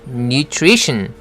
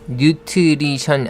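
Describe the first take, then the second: First: The word is said with English sounds. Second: The word is said with Korean-style syllables. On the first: The speaker calls it right. "그래서 발음이 nutrition" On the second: The speaker calls it wrong. "뉴트리션 아닙니다"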